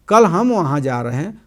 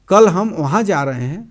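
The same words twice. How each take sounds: First: The word हम carries the main stress. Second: The word कल carries the main stress. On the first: We are going, not someone else. "अर्थ और कोई" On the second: We are going tomorrow and not another day. "अर्थ किसी और दिन नहीं"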